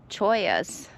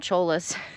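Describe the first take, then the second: First: The middle consonant is a Y sound. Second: The middle consonant is an L sound. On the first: The speaker calls it right. "I said it right" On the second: The speaker calls it wrong. "I called them cholas. ... they're spelled like that"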